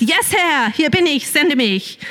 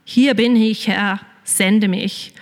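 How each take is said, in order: First: Higher, eager pretend Moses; mock eager answer. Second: Slow, earnest surrender; devoted answer. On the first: Preacher imagines Moses answering God, mock eager. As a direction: toss it off like a keen volunteer. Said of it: "Nein, sagt er leider nicht". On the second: Retold or imitated. Believer answering God like Isaiah, slow and sincere. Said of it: "sein wie der Jesaja und sagen".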